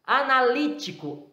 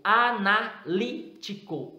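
First: Said in the usual way. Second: "analítico" slowly broken up syllable by syllable; slow syllable-by-syllable "analítico" for a class; split into syllables. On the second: Shown as a demonstration. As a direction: say "analítico" as a-na-lí-ti-co, pausing to set the "lí" apart. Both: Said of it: "O li é uma sílaba separada".

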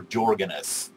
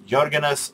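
First: Jorgen S with a J sound, as JOR-gen; English pronunciation of Jorgen. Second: First Jorgen S with a Y sound, as YOR-gen; native pronunciation of Jorgen. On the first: Vlogger listing accepted versions, English Jorgen with a J. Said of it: "Americans or other English-spoken, uh, people, uh, also says". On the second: Vlogger listing accepted versions, native Jorgen with a Y. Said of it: "that is perfectly all right with me". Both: Shown as a demonstration.

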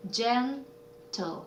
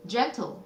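First: "gentle" split into gen, pause, tle, softly; syllable by syllable. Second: Said in the usual way. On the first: Shown as a demonstration. Teacher sounding out a word, "gentle" in two separate syllables. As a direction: pull "gentle" apart slowly and softly. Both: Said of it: "요거는 silent 이였고요".

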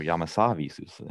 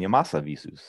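First: Yamasa as YAH-muh-sah, weak middle syllable; Yamasa with open ends. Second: Yamasa as yuh-MAH-suh, stress on the middle; Yamasa stressed mid-word. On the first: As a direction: say Yamasa with full first and last vowels. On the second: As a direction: say Yamasa with a reduced first syllable and a strong MA. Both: Shown as a demonstration. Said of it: "however you like to pronounce it".

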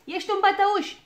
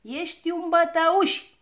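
First: High, loud, quicker jeer; repeated taunt. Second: High, loud, drawn-out taunt; shouted accusation. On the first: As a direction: shout the accusation in a little girl's high voice. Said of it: "repetă ea". (strigăt ascuțit, scurt, de tachinare) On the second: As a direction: shout it slowly like a cheeky little girl. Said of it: "strigă ea". (strigăt ascuțit și tărăgănat) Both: A narrator's reading.

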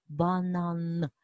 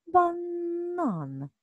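First: "банан" with the last н held long; final N held. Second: "Банан" high, with the middle н stretched long; middle N held. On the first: Teacher shows where the sound lives, "банан" with lengthened final н. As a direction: hum on the н that ends "банан". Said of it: "Один живе в кінці". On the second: Teacher shows the second sound, "Банан" with lengthened middle н. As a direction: dwell on the first н, inside "Банан". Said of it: "а другий живе всередині слова". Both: Shown as a demonstration.

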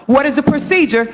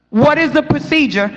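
The two takes are said the same way.

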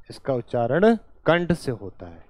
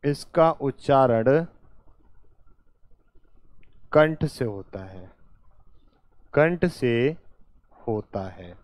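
First: Said in the usual way. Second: Measured, halting pace for writing along; slow dictation. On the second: Real, not acted. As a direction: dictate in short phrases with long gaps. Teacher dictates phrase by phrase. (धीरे-धीरे, टुकड़ों में लिखवाते हुए)

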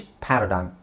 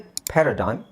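First: ಪ್ಯಾರಾಡೈಮ್ the British way, open "PA-ra-dime"; British pronunciation. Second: ಪ್ಯಾರಾಡೈಮ್ the American way, "PERR-a-dime"; American pronunciation. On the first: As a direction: say ಪ್ಯಾರಾಡೈಮ್ with a wide "pæ" first vowel. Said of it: "British". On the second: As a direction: say ಪ್ಯಾರಾಡೈಮ್ with "pe" as first vowel. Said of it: "American". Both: Shown as a demonstration.

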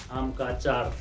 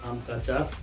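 No difference in how they are said.

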